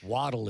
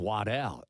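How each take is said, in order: First: The name is given an English-style pronunciation. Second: The name is given a French-style pronunciation. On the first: This is the family's true pronunciation. The speaker calls it right. "the true Scottish and English pronunciation" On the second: This is how people mispronounce the name. The speaker calls it wrong. "Sometimes people pronounce it for some strange reason"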